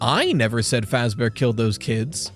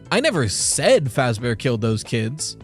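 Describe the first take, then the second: First: The stress falls on the word I. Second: The stress falls on the word said. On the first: Someone else said it. "means that somebody else said it" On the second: It was thought or written, not said. "means that I thought it or wrote it, just didn't say it"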